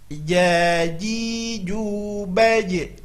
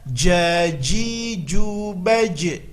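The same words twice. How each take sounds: First: The j is soft, made mid-tongue. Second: The j is hard, made tongue-tip. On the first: The speaker calls it right. "Maka bunyinya adalah jaji jubaj" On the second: The speaker calls it wrong. "Kesalahannya adalah jaji jubaj, salah"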